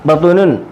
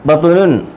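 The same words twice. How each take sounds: Both takes have the same delivery.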